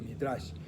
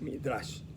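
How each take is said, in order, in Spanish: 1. La palabra termina en sonido sh. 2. La palabra termina en sonido sh.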